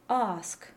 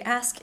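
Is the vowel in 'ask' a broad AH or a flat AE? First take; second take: broad AH; flat AE. First: The vowel is a broad dark AH sound. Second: The vowel is a flat front AE sound. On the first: The speaker calls it right. "a broad dark ah" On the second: The speaker calls it wrong. "the same way I say ask in American, with a phonetic AE sound"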